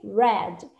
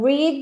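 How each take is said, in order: First: The vowel is short, rhyming with 'bed'. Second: The vowel is long, rhyming with 'need'. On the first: It is the past tense. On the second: It is the present tense.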